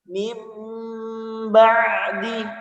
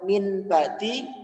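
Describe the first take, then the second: First: The first word ends with an m sound. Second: The first word ends with an n sound. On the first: "maka menjadi mim ba'di" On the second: "yang awalnya dibaca min ba'di"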